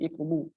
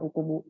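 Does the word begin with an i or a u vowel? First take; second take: i; u. First: The word begins with an i vowel. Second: The word begins with a u vowel. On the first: The speaker calls it right. "tapi ... hamzah wasol dibaca kasroh" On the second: The speaker calls it wrong.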